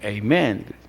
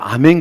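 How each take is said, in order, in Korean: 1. 미국식 발음으로 해요. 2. 한국식 발음으로 해요. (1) "그 사람들은 또 아멘 안 하다 에이멘 그래요" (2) "우리가 설교 들을 때 은혜 받으면 뭐예요? 아멘 그러죠?"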